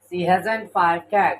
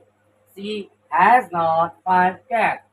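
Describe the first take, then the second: First: 'Has not' is squeezed into one contracted word. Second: 'Has not' is said as two full words.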